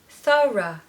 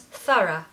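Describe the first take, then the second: First: The word is said slowly and carefully. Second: The word is said quickly and smoothly.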